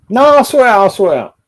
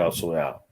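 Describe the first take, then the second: First: Higher and louder, shouting that he'll sort it; loud boast. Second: Quiet low aside. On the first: Streamer insisting he'll handle it, loud boasting shout. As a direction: bellow it out, full of himself. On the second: Streamer repeating his promise, low quiet aside. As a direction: lower and softer mutter of "I'll sort it out". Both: Acted.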